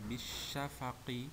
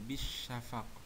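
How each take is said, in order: First: The word ends with a short vowel. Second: The word ends on a stopped q sound. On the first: The reading continues past this word. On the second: The reading stops at this word.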